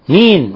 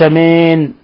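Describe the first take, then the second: First: The vowel after m is a pure, clear i. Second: The vowel after m is blurred and impure. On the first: The speaker calls it right. "إخلاص الكسر كسر الميم" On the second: The speaker calls it wrong. "عدم إخلاص الكسرة"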